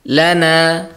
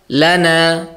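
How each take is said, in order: The two takes are said the same way.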